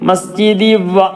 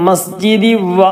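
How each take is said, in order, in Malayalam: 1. n ശബ്ദം അടുത്ത wa-യിൽ ലയിക്കുന്നു. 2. n ശബ്ദം അടുത്ത wa-യിൽ ലയിക്കുന്നു.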